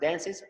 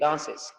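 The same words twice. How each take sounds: First: It is said with an American accent. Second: It is said with a British accent. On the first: "Americans say dance" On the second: "British say dances"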